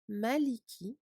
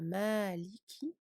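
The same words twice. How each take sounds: First: The vowels are kept short, with no added lengthening. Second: A vowel is drawn out with an added lengthening. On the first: The speaker calls it right. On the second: The speaker calls it wrong.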